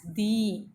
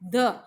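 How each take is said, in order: First: The vowel is a long 'ee' sound. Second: The vowel is short and weak. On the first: The next word is given emphasis. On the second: No emphasis is given to the next word.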